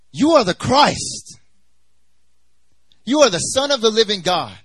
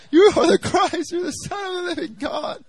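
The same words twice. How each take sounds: First: Bold proclamation. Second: High-pitched, wailing mock sob; re-enacted crying. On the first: Acted. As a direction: jump in and proclaim it with full conviction. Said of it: "jumps up and he says". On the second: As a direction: cry it out in a very high voice. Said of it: "I'm, like, crying".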